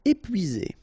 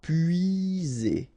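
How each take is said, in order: First: Said in the usual way. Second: Slow, stretched "épuisé"; drawn out. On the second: Shown as a demonstration. French teacher modelling for learners, "épuisé" slow and drawn out. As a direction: draw out each sound of "épuisé".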